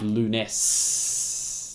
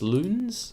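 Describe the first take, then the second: First: The name ends in a long hissing s sound. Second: The name ends in a soft buzzing z sound. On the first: "the double S makes me think it should be Lunes, like a snake" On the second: "I'm pronouncing it Loons"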